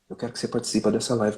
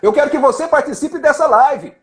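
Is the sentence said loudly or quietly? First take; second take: quietly; loudly. First: The sentence is spoken softly. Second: The sentence is shouted loudly. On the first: "Outra hora você pode falar baixo" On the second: "pode gritar com quem está lá na fundo"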